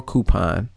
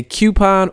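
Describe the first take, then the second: First: "coupon" opening like coo; "coupon" as KOO-pon. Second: "coupon" opening like cue; "coupon" as KYOO-pon. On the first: Host gives other option, "coupon" as KOO-pon. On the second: Host gives one option, "coupon" as KYOO-pon. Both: Shown as a demonstration. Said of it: "You can say coupon or coupon".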